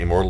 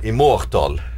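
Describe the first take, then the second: First: It uses the usual English pronunciation. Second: It uses the Norwegian dialect pronunciation. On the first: This is how others say it. "we don't say immortal" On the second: This is how Norwegians say it. "we say immortal"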